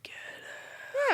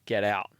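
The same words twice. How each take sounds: First: It is said in a creepy, eerie way. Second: It is said in a plain, matter-of-fact way.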